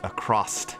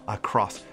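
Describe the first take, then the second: First: The word ends with an added T sound. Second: The word ends with a plain S sound.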